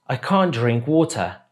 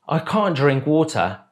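No difference in how they are said.

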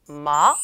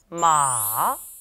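First: The pitch rises from middle to high. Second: The pitch goes down low and is drawn out. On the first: "2성은요, 살짝 감아쳐서 올라가요" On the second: "3성은요, 쭉 내려옵니다"

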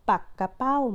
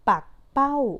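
First: The word is said with three syllables. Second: The word is said with two syllables. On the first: It means a pufferfish. "อ่านอีกแบบหนึ่งก็คือ" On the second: It means a kind of kite with a long tail. "อ่านว่าปักเป้า"

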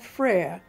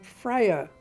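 First: The name is said with one syllable. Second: The name is said with two syllables. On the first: "one syllable" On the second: "two syllables"

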